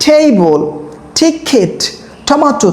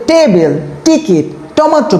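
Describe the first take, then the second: First: টেবল টিকিট টমেটো with breathy th; aspirated t. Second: টেবিল টিকিট টমেটো with hard ট; old Bengali way. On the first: Teacher showing students the correct way. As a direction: puff air on each t. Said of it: "তখন তুমি এটাকে কি উচ্চারণ করছো?". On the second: Teacher showing students their old wrong way. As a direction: say them with flat ট, no air. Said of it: "তুমি আগে এটাকে উচ্চারণ করতে". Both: Shown as a demonstration.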